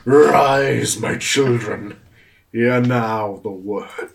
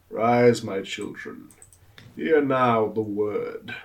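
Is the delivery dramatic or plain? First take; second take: dramatic; plain. First: It is said in a grand, dramatic narrator style. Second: It is said in a plainer, less dramatic way. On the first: The speaker calls it right. "You have to do it again like the arise, ye tarnished" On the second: The speaker calls it wrong.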